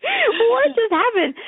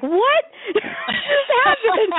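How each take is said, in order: First: Slow, very high, louder echo with no laugh; stunned echo. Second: Slow, very high, loud cry of disbelief broken by laughter; laughing disbelief. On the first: Scene: echoing the friend's stunned question, slow and high. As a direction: drag out the friend's shock once more. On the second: Scene: friend reacts to her chatting up the producer, laughing disbelief. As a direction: shout the friend's shock while laughing. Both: Retold or imitated. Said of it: "And my friend's like".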